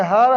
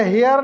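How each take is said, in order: First: "हर" with an open a, no glide; corrected her. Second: "हेयर" drawn out like English hair; mispronounced her. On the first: Teacher giving the class the right word, firm open "हर". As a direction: say "हर" firmly with one open vowel. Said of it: "ये हर है". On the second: Teacher correcting the class, "हेयर" said slowly like hair. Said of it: "ये हेयर नहीं है". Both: Shown as a demonstration.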